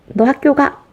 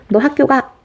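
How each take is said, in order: No difference in how they are said.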